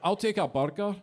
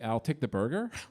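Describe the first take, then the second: First: It is said in a Scottish accent. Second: It is said in an American accent. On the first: The listener cannot understand it. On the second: The listener can understand it.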